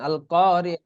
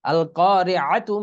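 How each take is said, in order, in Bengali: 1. শব্দটি নরমভাবে 'h' ধ্বনি দিয়ে শেষ হয়। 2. শব্দটি পূর্ণ 'tu' ধ্বনি দিয়ে শেষ হয়।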